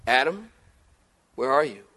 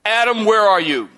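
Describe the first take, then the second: First: Soft, low tender call; gentle searching call. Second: Loud, sharp demanding call; stern angry summons; harsh call. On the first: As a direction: call him like a worried father. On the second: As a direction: call him out like an accusation. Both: Shown as a demonstration. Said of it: "Tone's everything".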